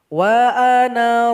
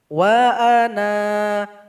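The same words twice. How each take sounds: First: The final vowel of ana is kept short. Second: The final vowel of ana is held long. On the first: The reading continues without stopping. "Jadi nun dibaca pendek" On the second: The reading stops at this word. "Harus dipanjangkan dua harokat"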